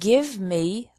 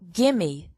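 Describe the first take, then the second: First: Give me is said as two full words. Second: Give me is run together as gimme.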